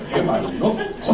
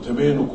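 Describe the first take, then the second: First: The name's vowel sounds like 'ai'. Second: The name's vowel sounds like a long 'ee'. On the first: The speaker calls it right. "そうじゃない、" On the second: The speaker calls it wrong. "江戸っ子的に発音すると"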